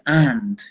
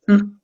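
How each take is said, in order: First: It is said with a full, clear vowel. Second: It is reduced to a short nasal hum. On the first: "they learn the strong pronunciation" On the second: "it's a mm sound"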